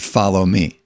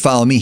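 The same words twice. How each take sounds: First: It is said personally to one person. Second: It is called out generally to a crowd.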